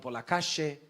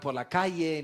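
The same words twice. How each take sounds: First: It is said with an Argentine accent. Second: It is said with a Peruvian accent. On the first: "no por la calle" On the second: "Y voy por la calle"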